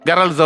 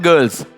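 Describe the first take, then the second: First: The vowel sounds like 'ar' in 'garls'. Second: The vowel sounds like 'er' in 'girls'. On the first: The speaker calls it wrong. "പണ്ടത്തെയൊക്കെ പറയുന്ന പോലെ ഗേൾസിന് ഗറൾസ് എന്നും" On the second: The speaker calls it right. "ഉച്ചാരണത്തിൻ്റെ ഒരു ശ്രദ്ധ"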